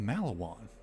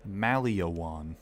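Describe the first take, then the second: First: The name has no extra vowel sound inside. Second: The name has an extra vowel sound inside. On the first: The speaker calls it right. "There's no extra letter there" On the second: The speaker calls it wrong. "He pronounced this Maliawan"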